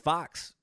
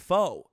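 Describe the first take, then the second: First: The word ends with a clear ks sound. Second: The word ends on a vowel sound. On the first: The speaker calls it wrong. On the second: The speaker calls it right.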